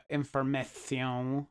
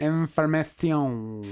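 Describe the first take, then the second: First: Information slurred, slow and stumbling; garbled word. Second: Information with a lisped Spanish ending; weird pronunciation. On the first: Real, not acted. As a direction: information mispronounced, syllables jumbled. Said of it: "it didn't come out quite right". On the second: Shown as a demonstration. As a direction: Information said slowly, lisping the last syllable. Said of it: "And then I said it weird".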